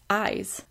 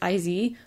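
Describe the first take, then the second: First: The name sounds like the word 'eyes'. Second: The name rhymes with the word 'is'. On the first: The speaker calls it right. "but no, it's Eyes" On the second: The speaker calls it wrong. "I thought it was IZ"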